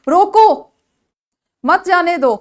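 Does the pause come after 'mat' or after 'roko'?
after roko. The pause comes right after 'roko'. Stop the person; do not let them go. "आप किसी को रोक रहे हैं और उसको जाने से मना कर रहे हैं"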